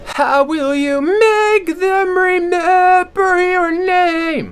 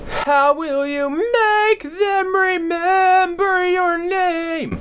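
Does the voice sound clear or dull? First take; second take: dull; clear. First: The voice sounds covered, dull and throaty. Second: The voice sounds clear and supported from below. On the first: "with compensating on the throat ... it's kind of covered in its dull" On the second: "straight from my diaphragm"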